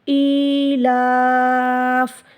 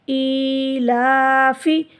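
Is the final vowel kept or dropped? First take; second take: dropped; kept. First: The final vowel is dropped, the la lengthened. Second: The final vowel is kept after the f. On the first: The reader stops at this word. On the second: The reading continues without a stop.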